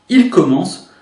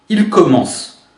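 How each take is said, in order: No difference in how they are said.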